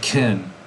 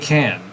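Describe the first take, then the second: First: The word has a weak, reduced vowel. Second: The word has a full, clear vowel. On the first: "I say can" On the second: "I don't say can when I'm talking"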